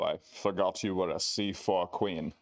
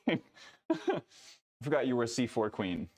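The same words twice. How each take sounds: First: It is read in a put-on character voice. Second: It is read in the speaker's plain voice. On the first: The speaker calls it right. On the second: The speaker calls it wrong.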